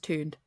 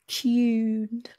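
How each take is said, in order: First: The word is said in an American accent. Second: The word is said in a British accent. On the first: "Or for the Americans" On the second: "Let me say it in a British way"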